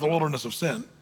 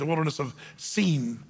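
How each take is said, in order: First: The last word is said like 'sin'. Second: The last word is said like 'seen'. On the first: The place was marked by wrongdoing. "But it really was the Wilderness of Sin" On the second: This is the proper name of the place. "if you're really pronouncing it correctly"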